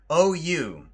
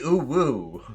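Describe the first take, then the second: First: The second syllable begins with a y sound. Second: The second syllable begins with a w sound. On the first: The speaker calls it wrong. "No, you did not say it right" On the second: The speaker calls it right. "It's supposed to be ooh woo"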